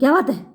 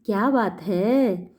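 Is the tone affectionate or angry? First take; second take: angry; affectionate. First: It is shouted in a loud, angry tone. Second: It is said in a soft, affectionate tone. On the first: The speaker is scolding out of irritation. "गुस्से से पूछते हैं ... ऐसे चिल्ला के बोलते हैं ना" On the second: The speaker is asking kindly out of care. "प्यार से पूछते हैं"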